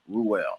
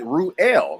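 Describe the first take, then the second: First: A W sound links the two vowels. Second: No W sound links the two vowels. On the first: "it's pronounced as if it was R U W E L L" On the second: "like without the W sound"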